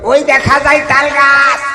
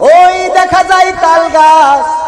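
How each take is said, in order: First: It is recited in a brash, joking comedian's style. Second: It is recited in a sermon-like preacher's style. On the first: "ওই যে কৌতুক শিল্পী মুজিবার" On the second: "ওয়াইজেনের কাছে দিই, একজন বক্তা ধরেন"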